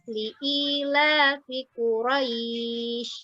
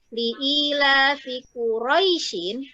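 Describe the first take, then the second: First: The last word stops on a bare consonant. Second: The last word ends with a full vowel ending.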